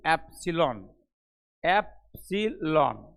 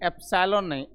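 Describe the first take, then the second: First: एप्सिलॉन said slowly and clearly as ep-si-lon; teacher modelling the right way; correct pronunciation. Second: एप्सिलॉन said the wrong way, as epsalon; teacher showing the wrong way; wrong pronunciation. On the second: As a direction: show the mistaken एप्सिलॉन. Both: Shown as a demonstration. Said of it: "एप्सिलॉन बोलेंगे".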